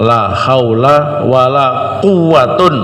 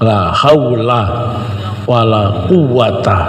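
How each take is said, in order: First: The last word ends in -un. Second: The last word ends in a short -a. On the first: "yang kedua dirafa" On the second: "sama-sama mabni fathah"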